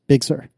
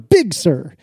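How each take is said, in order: First: Both words are stressed the same amount. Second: One word is stressed more than the other. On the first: The speaker calls it right. "equal emphasis" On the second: The speaker calls it wrong. "says that it is never Big Sur"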